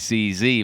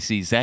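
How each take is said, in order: First: The letters are said in an American way. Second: The letters are said in a British way. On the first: "those Yanks say C Z" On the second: "but I always say C Z"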